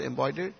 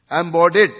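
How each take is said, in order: First: "Embodied" tried softly with a questioning rise; "Embodied" said as a query; unsure pronunciation. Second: "Embodied" said loud and firm with an open "bod"; "Embodied" sounded out clearly and loudly; corrected pronunciation. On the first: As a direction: check the sound of "Embodied" tentatively. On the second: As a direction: pronounce "Embodied" deliberately and confidently. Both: Real, not acted. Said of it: "how to pronounce it proper?".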